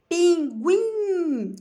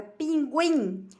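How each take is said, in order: First: PINGUIM split up, higher and louder, with a long held GUIM; stress on last syllable. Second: Said in the usual way. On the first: Shown as a demonstration. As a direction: stretch out "pinguim" and ring out the GUIM. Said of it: "a mais forte é o guim". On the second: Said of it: "Observe a palavra pinguim".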